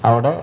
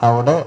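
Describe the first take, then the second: The two takes are said the same way.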